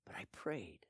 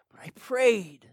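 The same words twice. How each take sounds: First: Quiet. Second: Firm. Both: Acted.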